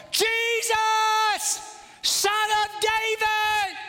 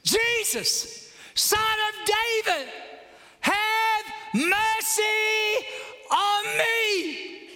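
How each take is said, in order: First: Long, high-pitched bellow; louder shout. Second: High, drawn-out cry for help; acted shout. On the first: Acted. Blind man ignored, shouting all the louder to Jesus. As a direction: stretch each word into a sustained cry. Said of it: "So he shouts all the louder". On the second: Blind man calling to Jesus for mercy, high acted shout. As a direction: call out high, stretching the last words. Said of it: "he shouts".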